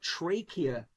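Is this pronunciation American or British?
American. It is said in an American pronunciation.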